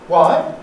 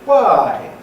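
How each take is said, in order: First: The pitch rises at the end. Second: The pitch falls at the end. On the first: It sounds rude and reluctant to comply. "It would be possible to use a rise" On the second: It is the ordinary neutral question.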